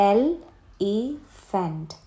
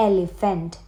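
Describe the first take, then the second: First: എലിഫന്റ് as three isolated beats, "el, e, phant"; long pauses between എൽ, ഇ and ഫന്റ്; split into syllables. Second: Said in the usual way. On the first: Shown as a demonstration. (എൽ, ഇ, ഫന്റ് എന്ന് നിർത്തി നിർത്തി) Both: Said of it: "three syllable words".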